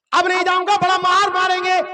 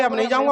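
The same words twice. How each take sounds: First: Insistent refusal. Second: Said in the usual way. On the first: Acted. Guest insists, fearing a beating.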